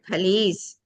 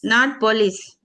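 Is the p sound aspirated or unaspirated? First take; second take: aspirated; unaspirated. First: The p sound is aspirated. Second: The p sound is unaspirated. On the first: The speaker calls it right. "should be aspirated" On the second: The speaker calls it wrong.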